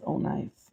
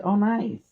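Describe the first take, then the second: First: Low, soft, flat-out dry sarcasm; deadpan sarcasm. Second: High mock-cheerful sarcasm; sarcastic. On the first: Streamer seeing six percent battery, low soft deadpan sarcasm. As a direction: drop it low in defeat. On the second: Streamer seeing six percent battery, high mock-cheerful sarcasm. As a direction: fake delight at bad news. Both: Real, not acted.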